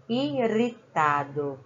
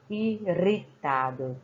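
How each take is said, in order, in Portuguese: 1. O R do meio é um toque fraco e leve. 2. O R do meio é um toque fraco e leve.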